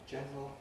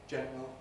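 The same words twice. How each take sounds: No difference in how they are said.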